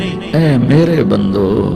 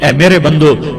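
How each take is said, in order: First: It is said in a soft, affectionate tone. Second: It is said in a stern, commanding tone. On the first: The speaker calls it right. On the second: The speaker calls it wrong.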